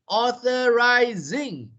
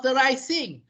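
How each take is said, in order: First: The middle consonant is a buzzing z sound. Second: The middle consonant is a hissing s sound. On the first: The speaker calls it right. "Just remember it is a Z sound" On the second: The speaker calls it wrong. "it's not authorizing"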